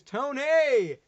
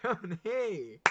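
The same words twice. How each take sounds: First: Loud call. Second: A laughing echo of the name; laughing repeat. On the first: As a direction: shout the name high and loud across the room. Calling out to a guest. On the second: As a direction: say the name again through a laugh. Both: Real, not acted.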